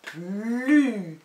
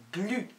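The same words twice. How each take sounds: First: "Plus" with a long L and vowel; drawn-out dictation. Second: Said in the usual way. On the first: Shown as a demonstration. Teacher dictating the fourth syllable, slowly drawn out. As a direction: stretch "Plus" loudly, sound by sound. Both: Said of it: "des dictées de syllabes".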